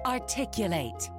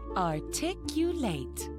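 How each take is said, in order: First: The word is said a little faster. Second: The word is said at a normal pace.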